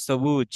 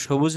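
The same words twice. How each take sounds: First: Sharp English 's' at the start of সবুজ; dental s. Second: Hushing 'sh' at the start of সবুজ; Bengali sh. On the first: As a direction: say সবুজ as 'sobuj'. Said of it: "স এর মতো উচ্চারিত হবে". (দন্ত্য 'স' দিয়ে সবুজ) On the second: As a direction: say সবুজ as 'shobuj'. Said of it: "সবুজ না বলে". (বাংলা 'শ' দিয়ে সবুজ) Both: Shown as a demonstration.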